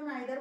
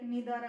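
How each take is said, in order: First: The first vowel sounds like 'eye'. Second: The first vowel sounds like 'ee'. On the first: This is the older way of saying it. "पहले हम लोग इसको आइदर और नाइदर बोलते थे" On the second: This is the current way of saying it. "Right now we pronounce की like नीदर"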